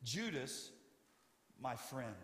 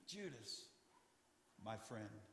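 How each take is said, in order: First: Soft and gentle address; quiet, kind words to a traitor. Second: Much softer, almost breathed; barely above a breath, full of love; hushed, tender repeat to the betrayer. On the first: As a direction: say it kindly to the betrayer. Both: Shown as a demonstration. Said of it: "would speak to them like this".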